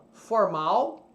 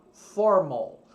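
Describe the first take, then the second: First: Said in the usual way. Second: "formal" stressed on the first syllable, FOR-mal; "formal" said the English way, with an O-ish final syllable; "formal" with stress moved forward and a dark L. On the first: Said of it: "Do lado esquerdo ... o português". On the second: Shown as a demonstration. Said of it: "em inglês você vai falar formal".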